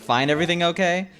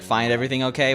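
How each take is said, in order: First: It is said smirking, holding back laughter. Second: It is said in a plain, neutral tone. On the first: The asker finds the purchase funny. "A little snark in his voice" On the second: It is a routine polite question. "he's always like"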